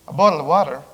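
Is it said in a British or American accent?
American. It is said in an American accent.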